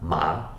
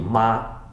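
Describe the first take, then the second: First: The pitch rises from mid to high. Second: The pitch stays high and level.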